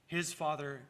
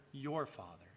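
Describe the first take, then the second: First: "His" hit firmly, then "Father" falls away; stress on his. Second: "your" stressed, the whole phrase dropping softer and lower. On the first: Preacher contrasts Jesus' Father with the hearers', stressing "His". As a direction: lean on "His" to set it against yours. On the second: Preacher turns the Father to the listeners, quietly stressing "your". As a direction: land on "your" as the answer to "His". Contrasts whose Father, his versus yours. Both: Shown as a demonstration.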